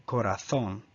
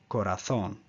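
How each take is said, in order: First: The z is pronounced as a th sound. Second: The z is pronounced as a th sound.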